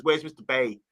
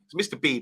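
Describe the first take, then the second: First: Light Brummie imitation; a hint of Birmingham on "Bay"; Birmingham accent. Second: Said in the usual way. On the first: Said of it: "He's in the Birmingham Brunning accent". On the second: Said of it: "That's how you say it".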